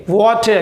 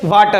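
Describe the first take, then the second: First: "वाटर" with a rounded "aw" vowel, WAW-ter; correct water. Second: "वाटर" with an open "aa" vowel, VAA-tar; mispronounced water. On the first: Teacher giving the right way, "वाटर" said as WAW-ter. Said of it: "इसको हम right क्या बोलेंगे". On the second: Teacher mimicking how people say it, "वाटर" mispronounced as VAA-ter. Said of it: "लोग इसको बोलते हैं". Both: Shown as a demonstration.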